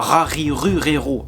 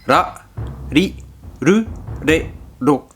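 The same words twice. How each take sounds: First: The R is a French throaty R. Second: The R is tapped like a Spanish R. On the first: The speaker calls it wrong. "on dit pas ra, ri, ru, re, ro à la française" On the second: The speaker calls it right. "comme des R espagnols"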